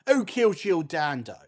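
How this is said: It is said in an exaggerated Cockney accent. "Let's do it, Cockney"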